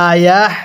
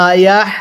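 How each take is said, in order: The two takes are said the same way.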